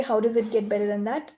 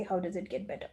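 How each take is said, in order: First: Bright, lifted question, sure something better is coming; joyful expectation. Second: Quieter, sinking question with a falling end; deflated, defeated tone. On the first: Coach demonstrating asking with the energy of joy, lifted and bright. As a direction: ask it expecting good news. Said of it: "I say it with that energy". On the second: Coach demonstrating the wrong, defeated way to ask, low and quiet. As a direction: ask it as if all hope is gone. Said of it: "And then with that energy, I say". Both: Shown as a demonstration.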